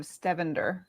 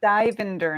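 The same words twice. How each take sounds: First: Stevender with an e in the first syllable; misspelt name pronunciation. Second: Stivender with an i in the first syllable; correct name pronunciation. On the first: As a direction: say Stevender, first vowel as short e. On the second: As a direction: say Stivender, first vowel as i, not e. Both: Shown as a demonstration. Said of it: "Stivender instead of Stevender".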